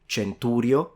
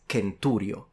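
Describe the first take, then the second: First: The first sound is a soft consonant. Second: The first sound is a hard K. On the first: The speaker calls it wrong. "it's not centurio" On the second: The speaker calls it right. "The C for an ancient Romans was pronounced like a K"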